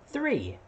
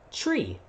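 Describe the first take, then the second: First: It begins with a th sound. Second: It begins with a plain t sound. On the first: The speaker calls it right. "the kids was saying" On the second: The speaker calls it wrong. "with my accent, I was saying"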